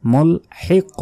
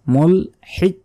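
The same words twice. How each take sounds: First: "মুলহিক" higher, with a bounced, released q at the end; শেষে ধাক্কা. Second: "মুলহিক" ending in a dead, unreleased k; ধাক্কা ছাড়া, ভুল. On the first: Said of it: "শেষে একটা ধাক্কা হবে". ("মুলহিক" শেষ অক্ষরে ধাক্কা দিয়ে) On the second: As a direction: shut "মুলহিক" off with no bounce. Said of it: "বলা যাবে না". ("মুলহিক" শেষে ধাক্কা না দিয়ে) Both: Shown as a demonstration.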